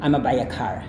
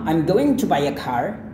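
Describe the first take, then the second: First: Going to shrinks to a single a sound. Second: Going to is said in full. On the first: "kemudian dihilangkan lagi"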